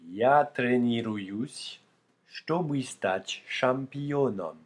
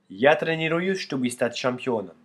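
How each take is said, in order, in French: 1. La phrase est prononcée plus lentement. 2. La phrase est prononcée plus vite.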